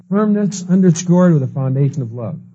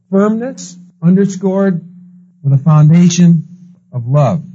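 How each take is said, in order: First: Said in the usual way. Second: Firmness underscored with a foundation of love, each phrase slow and weighty with pauses; slow down and punch "Firmness", then "foundation", then "love"; slow emphatic motto. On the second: Acted. Preacher driving home his motto, slow and emphatic.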